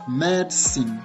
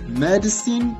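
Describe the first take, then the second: First: The middle syllable is dropped entirely. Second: All syllables, including the middle one, are pronounced. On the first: "Le dit ne se lit même pas en fait" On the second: "ça se ressemble un peu"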